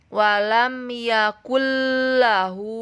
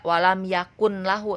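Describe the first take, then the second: First: The n merges straight into the l sound. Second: The n is clearly sounded before the l. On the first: The speaker calls it right. "Cara bacanya walam yakullahu" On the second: The speaker calls it wrong. "tidak walam yakun lahu"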